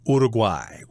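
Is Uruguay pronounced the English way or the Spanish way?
Spanish. The word is said with a Spanish pronunciation. "in Espanol, I guess it would be pronounced Uruguay"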